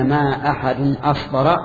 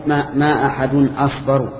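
First: "أصبر" ending in an a vowel, asbara; Qurayshi case ending. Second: "أصبر" ending in a u vowel, asbaru; Tamimi case ending. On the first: Teacher showing students the Quraysh dialect reading, "أصبر" ended in -a. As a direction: say "أصبر" with a final -a, Qurayshi accusative. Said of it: "فهذه لغة قريش". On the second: Teacher showing students the Tamim dialect reading, "أصبر" ended in -u. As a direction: say "أصبر" with a final -u, Tamimi nominative. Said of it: "فهذه لغة تميم". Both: Shown as a demonstration.

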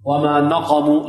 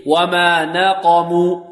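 First: نقموا with a thick, dark nun; over-heavy nun. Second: Slow chanted نقموا with a thin nun; corrected light nun. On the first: Teacher demonstrating an error to avoid, over-heavy nun. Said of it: "نفخم النون". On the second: Teacher correcting the mistake for students, light nun. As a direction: draw out وما نقموا, keeping the nun light. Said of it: "لا". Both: Shown as a demonstration.

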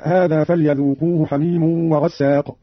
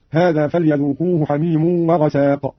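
First: Said in the usual way. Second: "وغساق" with a short single s; light single seen. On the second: Shown as a demonstration. Teacher demonstrates Qalun's reading, "وغساق" with undoubled s. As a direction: say "وغساق" as wa-ghasaq, the s not doubled. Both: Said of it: "بتخفيف السين".

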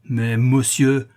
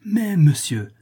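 First: Slow, louder drawn-out protest; unhappy exclamation. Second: High, exasperated comeback. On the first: Hapless porter trying to interrupt the passer-by, slow plaintive cry. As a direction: stretch out a helpless objection. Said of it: "s'écria le malheureux portier". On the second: Passer-by hitting back at the porter, high exasperated protest. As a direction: cut back in, pitched sharply up. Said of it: "reprit le gobe-mouche exaspéré". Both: A narrator's reading.

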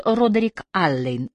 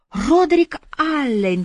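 First: Said in the usual way. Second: High, drawn-out lilting echo; teasingly sung-out name, slow and high; singsong. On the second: A narrator's reading. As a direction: croon the name slowly, up high. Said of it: "пропела Бобби".

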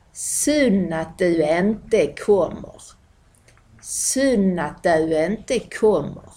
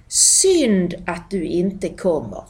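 First: Slow "Synd" as "sunn", "du inte" as "döu ente"; broad Malmö pronunciation. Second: Said in the usual way. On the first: Shown as a demonstration. Teacher demonstrating local sentence, "Synd" as slow "sunn". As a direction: stretch out "du" into a glide, slowly. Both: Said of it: "det blir ofta ett".

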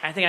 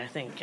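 First: Said in the usual way. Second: Muttered aside. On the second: Shown as a demonstration. Host adding a quiet afterthought to the audience, muttered. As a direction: drop it to a much softer, lower afterthought.

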